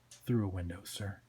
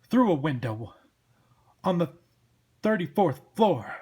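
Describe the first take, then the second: First: Low, soft, deferential correction; understated, obedient sidekick; meek deputy Twitch. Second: Loud, incredulous echo in a cop voice; blustering detective boss; exasperated cop Sam. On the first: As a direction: answer the boss quietly and dutifully. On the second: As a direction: repeat it loudly in disbelief. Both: Acted.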